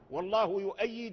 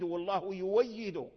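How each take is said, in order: First: The verb has a glottal stop before the vowel. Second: The verb has a w sound before the vowel. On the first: This is the form with the hamza kept. The speaker calls it wrong. "بعض الطلبات يقرأ والله يؤيد من هذا لحن" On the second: This is the Warsh reading with the hamza replaced. The speaker calls it right. "أبدالها واو"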